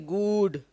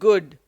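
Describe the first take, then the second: First: The vowel is a long oo sound. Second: The vowel is a short oo sound. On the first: The speaker calls it wrong. "We don't say good" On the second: The speaker calls it right. "words with a short oo sound"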